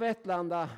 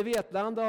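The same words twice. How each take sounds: First: "Vetlanda" with a short, open e; short first vowel. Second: "Vetlanda" with a long e; long first vowel. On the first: Preacher jokes about the town's two names, short-vowel "Vetlanda". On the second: Preacher jokes about the town's two names, long-vowel "Vetlanda". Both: Shown as a demonstration. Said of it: "I både Vetlanda och Vetlanda".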